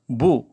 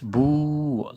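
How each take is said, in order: First: The vowel is short. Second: The vowel is long.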